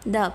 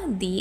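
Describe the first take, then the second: First: The word has a short 'uh' vowel. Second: The word has a long 'ee' vowel. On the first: "जब वो किसी consonant sound से पहले आए, ... तो इसको हम द पढ़ेंगे" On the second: "जब vowel sound से पहले हम द आए तो क्या होगा, दी एज प्रोनाउंस होगा"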